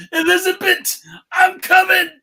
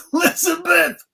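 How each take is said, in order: First: High, loud gravelly wrestling promo; Macho Man voice. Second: High strained cry to the sky; Red Fox voice. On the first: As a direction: roar it like a wrestler. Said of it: "I will do Macho Man". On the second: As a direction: wail the name like a sitcom dad. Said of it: "your Red Fox voice". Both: Retold or imitated.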